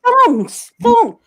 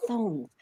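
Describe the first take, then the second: First: High, loud, exasperated "thongs"; insistent repeat. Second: Very soft, baffled "thongs"; quiet, bemused repeat; puzzled echo. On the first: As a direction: say "thongs" louder for someone who doesn't get it. Repeating it at baffled shoe staff. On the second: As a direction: echo "thongs" under your breath, not getting it. Baffled staff echo the word back. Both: Retold or imitated.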